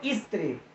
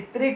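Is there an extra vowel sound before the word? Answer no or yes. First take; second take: yes; no. First: An extra i vowel comes before the st cluster. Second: The word starts directly with the st cluster.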